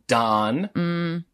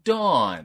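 First: The vowel sounds like the vowel in 'on'. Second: The vowel sounds like the vowel in 'awe'. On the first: "here's your first one" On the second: "I put the W in there"

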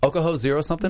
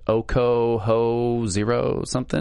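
First: It is said boldly, with more confidence. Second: It is said hesitantly, without confidence. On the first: The speaker calls it right. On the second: The speaker calls it wrong.

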